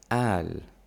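It begins with a glottal stop.

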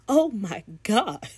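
It sounds appalled, with a shocked gasp.

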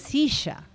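It is said with an Argentine accent. "Os argentinos diriam silla"

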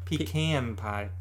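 Pecan is said in a Southern way.

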